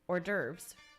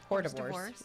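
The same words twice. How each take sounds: First: The word gets its usual standard pronunciation. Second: The word gets a spelling-based mispronunciation.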